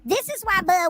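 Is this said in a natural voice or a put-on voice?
put-on. It is said in an imitated, put-on voice.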